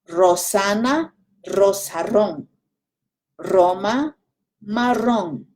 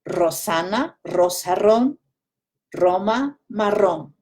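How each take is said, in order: First: It is said a little more slowly. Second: It is said at a normal pace.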